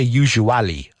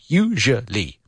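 First: The word is not said with three syllables. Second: The word is said with three syllables. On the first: The speaker calls it wrong. "I hear usually a lot, but no" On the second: The speaker calls it right. "Three syllables"

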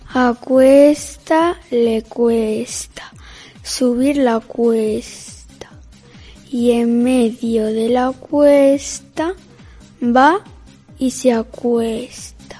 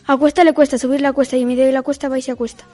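First: It is said slowly. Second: It is said fast.

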